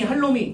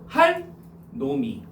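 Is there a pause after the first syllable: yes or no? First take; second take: no; yes. First: It runs together with no break after 할. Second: There is a short break after 할. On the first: The speaker calls it wrong. "할놈이 할놈이 이렇게 하는 게 아니고" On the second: The speaker calls it right. "할 놈이 이렇게 발음하라는 겁니다"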